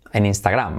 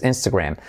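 First: "Instagram" with Spanish vowels, final syllable clear "gram"; Spanish pronunciation. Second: "Instagram" as "ENS-te-grem"; English pronunciation. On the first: Teacher showing the Spanish form, Spanish-vowel "Instagram". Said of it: "Diríamos en español". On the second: Teacher contrasting with Spanish, English "Instagram". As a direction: say "Instagram" with a reduced middle vowel. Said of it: "en inglés". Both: Shown as a demonstration.

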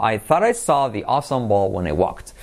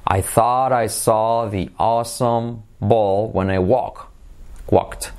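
First: Said in the usual way. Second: Slow, drawn-out vowels; slow model phrase. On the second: Shown as a demonstration. Teacher modelling the awesome-ball phrase for learners, slowly. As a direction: stretch each word out for a learner.

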